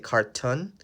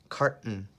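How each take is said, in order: First: The second syllable is said with a full vowel. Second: The second syllable is short and reduced. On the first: The speaker calls it wrong. "it looks like you say carton" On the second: The speaker calls it right. "but the pronunciation is carton"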